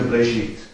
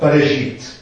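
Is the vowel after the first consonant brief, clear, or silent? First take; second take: silent; brief. First: There is no vowel after the B at all. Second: The vowel after the B is brief and reduced. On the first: "dann ist es überhaupt ganz stumm" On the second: "nicht so ein klares E danach"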